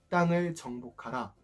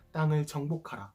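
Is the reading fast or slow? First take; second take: slow; fast. First: It is read slowly. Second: It is read at a normal pace.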